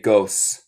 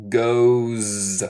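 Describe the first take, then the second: First: Goes ending in a hissed S; wrong S sound. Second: Goes drawn out as GOHZZ; correct buzzed Z. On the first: Teacher shows the mistake, hissed S on goes. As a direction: say goes as GOHSS, like a snake. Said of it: "No se dice goes". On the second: Teacher models it for students, long buzzed Z on goes. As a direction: buzz the end of goes like a bee. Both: Shown as a demonstration.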